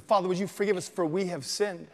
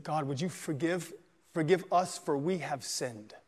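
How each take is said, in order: First: Said in the usual way. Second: Soft, slow plea for forgiveness; a hushed confession to God; hushed prayer. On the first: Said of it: "He said". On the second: A narrator's reading. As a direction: pray it quietly and slowly, head bowed. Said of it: "And he said".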